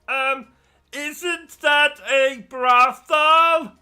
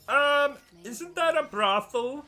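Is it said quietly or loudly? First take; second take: loudly; quietly. First: It is said noticeably louder. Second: It is said at a normal, quieter volume.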